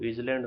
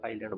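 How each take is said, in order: First: The s sound is pronounced in the word. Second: The s is silent in the word. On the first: The speaker calls it wrong. "इसको इजलैंड नहीं बोलते हैं" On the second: The speaker calls it right. "आइलैंड बोला जाता है"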